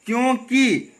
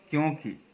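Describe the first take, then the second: First: क्योंकि with the final vowel held long; wrong pronunciation. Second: क्योंकि with a short final इ; correct pronunciation. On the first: Teacher showing the common slip, wrong pronunciation. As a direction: stretch the ending of क्योंकि, higher. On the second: Teacher correcting the slip, correct pronunciation. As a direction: drop softly onto a short-ended क्योंकि. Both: Shown as a demonstration. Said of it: "क्योंकि नहीं होता है".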